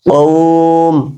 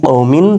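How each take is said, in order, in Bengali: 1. শব্দটি একটি খালি ব্যঞ্জনবর্ণে শেষ হয়, প্রত্যয়টি বাদ যায়। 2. শব্দটি একটি উচ্চারিত -in প্রত্যয় দিয়ে শেষ হয়। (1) "তবে থেমে গেলে কি হবে কওম" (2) "মিম দুজের মিন"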